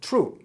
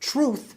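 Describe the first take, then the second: First: It ends with a hard t sound. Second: It ends with a soft th sound.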